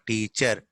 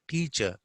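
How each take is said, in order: First: Teacher with a sounded final r; Telugu-English "teacher", ending on r; r pronounced. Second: Teacher ending in a schwa, no r; British r-less "teacher"; silent r. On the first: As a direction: say "teacher" as "tee-cherr". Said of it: "not teacher". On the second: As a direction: say "teacher" as "tee-chuh". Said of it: "R is also not pronounced". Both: Shown as a demonstration.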